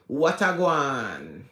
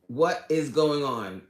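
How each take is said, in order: First: The words are melted together into fewer syllables. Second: Each word is said fully and separately. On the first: This is how Jamaicans casually say it. "they just kind of melt it all together" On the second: This is the standard form of the greeting. "That's the the proper way to say it"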